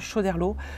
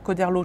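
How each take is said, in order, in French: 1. Le nom commence par un son 'sh'. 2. Le nom commence par un son 'k'. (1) "à l'époque il paraît qu'on disait bien Choderlos" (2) "au vingtième siècle on s'est mis à dire Coderlos"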